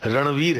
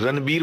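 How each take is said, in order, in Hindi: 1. बीच का व्यंजन v ध्वनि है। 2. बीच का व्यंजन b ध्वनि है। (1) "सही उच्चारण रणवीर है" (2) "लोग रणबीर बोलते हैं ... वी को भी बी बना दिया"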